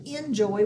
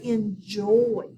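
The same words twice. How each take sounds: First: "enjoy" with the weight on EN; stress on first syllable. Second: "enjoy" with a long, stressed JOY; stress on last syllable. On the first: Teacher shows how we don't say enjoy, first syllable stressed. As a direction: say "enjoy" as EN-joy, front-stressed. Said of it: "we've always accented the first syllable". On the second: Teacher shows how we say enjoy, last syllable stressed. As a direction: say "enjoy" as en-JOY, slowly leaning on the end. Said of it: "say the last syllable a little harder". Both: Shown as a demonstration.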